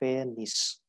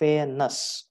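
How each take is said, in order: First: The last syllable sounds like "nis". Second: The last syllable sounds like "nus". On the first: "it is nus or nis" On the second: "it is nus or nis"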